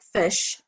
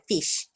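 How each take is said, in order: First: It is said with a New Zealand accent. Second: It is said with an Australian accent. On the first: "we say like fish" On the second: "the Australians say fish"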